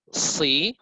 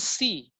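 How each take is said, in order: First: The s sound is heavy and emphatic. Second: The s sound is light and plain. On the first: The speaker calls it right. "Kalau si berarti sod dan di situ sod" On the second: The speaker calls it wrong. "Bukan si"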